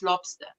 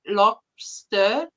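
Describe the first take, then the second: First: "lobster" ending in "stuh", no R; low, soft "lobster" said as lob-stuh; R left off. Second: Said in the usual way. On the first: Shown as a demonstration. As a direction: leave the R off the end of "lobster". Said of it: "leave off the R". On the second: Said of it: "if I say lobster".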